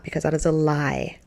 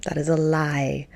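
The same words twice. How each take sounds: First: Said in the usual way. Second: Hushed, slow whisper of the warning; whispered warning: that's a lie. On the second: Shown as a demonstration. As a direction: breathe it as a secret warning.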